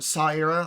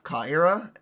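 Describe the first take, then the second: First: The name begins with an S sound. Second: The name begins with a K sound. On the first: The speaker calls it right. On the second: The speaker calls it wrong. "I believe I've been pronouncing it wrong this entire time"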